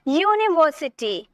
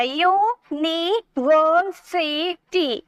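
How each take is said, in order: First: Said in the usual way. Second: यूनिवर्सिटी slowly in five beats, यू, नि, वर, सि, टी; split into syllables. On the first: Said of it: "next देखिए". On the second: Shown as a demonstration. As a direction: hold each syllable of यूनिवर्सिटी apart. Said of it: "five syllable हो गए हैं". (यूनिवर्सिटी को पाँच हिस्सों में धीरे तोड़कर)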